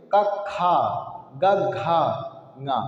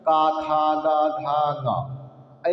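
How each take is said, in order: First: का short and light, खा with a strong breathy push; गा clipped, घा aspirated with more breath; breath contrast. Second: Put-on chanted like kids reciting letters; sung, sing-song rote recital of the alphabet; lilting schoolroom chant; sung, childhood sing-song. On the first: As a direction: say का quick and easy, then खा with extra air. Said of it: "प्राण वायु के हिसाब से पढ़ेंगे". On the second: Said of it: "ऐसे नहीं पढ़ा जाता है". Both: Shown as a demonstration.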